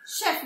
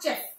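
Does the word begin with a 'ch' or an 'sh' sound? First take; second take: sh; ch. First: The word begins with an 'sh' sound. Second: The word begins with a 'ch' sound. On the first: The speaker calls it right. "this C-H will be pronounced as sh" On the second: The speaker calls it wrong. "not chef"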